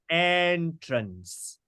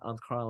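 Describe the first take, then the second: First: The stress is on the first syllable. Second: The stress is on the second syllable. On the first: The speaker calls it right. "It is entrance. ... All of them are stressed on the first syllable" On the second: The speaker calls it wrong. "this is not French. Yeah, this is not entrance. No, no, not entrance like that"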